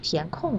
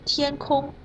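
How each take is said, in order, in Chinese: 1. 第一个音节升，第二个音节降。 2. 两个音节都读高平调。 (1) "填空的填是二声，空是四声" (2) "天空两个都是一声"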